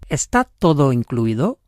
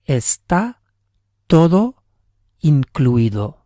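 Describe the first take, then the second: First: The voice rises at the end, like a question. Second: The voice falls at the end, like a statement. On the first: It asks whether everything is included. "We just changed the tone of our voice a bit" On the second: It states that everything is included. "It's all included"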